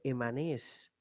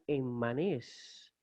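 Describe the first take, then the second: First: The double m is said as one m. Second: The double m is split between syllables. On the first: "lo vamos a leer sencillamente emanés" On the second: "otra opción sería enmanés"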